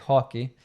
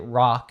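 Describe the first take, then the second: First: It starts with an h sound and ends in ee. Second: It starts with an English r, no added vowel. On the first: "in Brazil you say hockey" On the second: "in the States we say rock"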